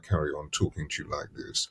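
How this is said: The voice is pitched low and deep. "If I go right down here like this"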